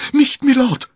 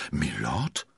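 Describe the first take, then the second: First: Very high, loud cry of alarm; scream. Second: Stunned question with a sharp rise; dismayed. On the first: Constanze throwing herself between the men, screaming. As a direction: scream to stop the fight. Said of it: "schrie Constanze". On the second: D'Artagnan learning the stranger's rank, dismayed. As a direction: echo it in disbelief. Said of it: "wiederholte D'Artagnan bestürzt". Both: A narrator's reading.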